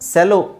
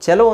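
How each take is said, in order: First: The word begins with an s sound. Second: The word begins with a ch sound. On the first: It is the name of a company. "Company ಹೆಸರು ಸೆಲೋ ಇರ್ಬೋದು" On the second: It is the musical instrument. "But actually"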